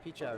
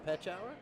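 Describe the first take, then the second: First: The first vowel is a high 'ee' sound. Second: The first vowel is a low 'eh' sound. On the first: It is the Americanized version. The speaker calls it wrong. "I've been pronouncing this wrong. It's not peach hour" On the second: It follows the German. The speaker calls it right. "It would be the low E, which would be Petch"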